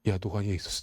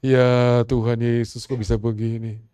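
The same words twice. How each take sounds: First: Soft and low, said to yourself; a hushed plea kept inside; silent inner prayer. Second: Slow and loud, drawn out in dismay; loud anguished cry. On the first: Pastor praying inwardly while a woman shouts, soft and low. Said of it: "dalam hati saya". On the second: The complaining woman crying out to Jesus, slow and loud. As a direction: cry it out slowly in disbelief. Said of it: "Dia komplain, dia marah-marah". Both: Retold or imitated.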